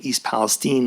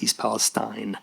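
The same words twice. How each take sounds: First: The name is said the way residents say it. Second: The name is said the way outsiders say it. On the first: The speaker knows the place. The speaker calls it right. "knew how to pronounce the name of the place he was in" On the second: The speaker is unfamiliar with the place. The speaker calls it wrong.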